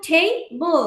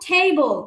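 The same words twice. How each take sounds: First: table in two beats, টে, then বল; split into syllables. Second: Said in the usual way. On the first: Shown as a demonstration. Teacher showing two syllables, table broken into টে and বল. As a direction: pull table apart with a gap before বল. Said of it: "মানে হচ্ছে দুইটা syllable". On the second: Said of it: "table হচ্ছে two syllable".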